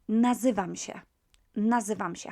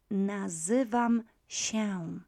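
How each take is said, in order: First: "nazywam się" run together, się as "sheh"; quick-speech ending. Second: "nazywam się" slowly, się as nasal "sheh-oon"; very slow, detailed. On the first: Teacher showing everyday speech, "nazywam się" ending in plain "sheh". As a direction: say "nazywam się" briskly without the nasal tail. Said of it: "but you would use, um, you would say". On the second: Teacher pronouncing in a detailed way, slow, fully nasal "nazywam się". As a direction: spell out each syllable of "nazywam się", full nasal ending. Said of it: "pronounce it very slowly in a detailed way".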